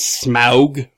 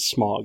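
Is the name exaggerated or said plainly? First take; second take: exaggerated; plain. First: The name is said in an exaggerated, drawn-out way. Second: The name is said plainly, without exaggeration. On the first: The speaker calls it wrong. "I only overpronounce it as Smaug because I think that's funny" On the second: The speaker calls it right. "The actual correct pronunciation is Smaug"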